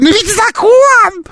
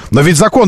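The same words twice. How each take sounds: First: High, slow squeaky parroting; squeaky mocking voice. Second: Said in the usual way. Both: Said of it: "повторять фразы оппонента своего писклявым голосом".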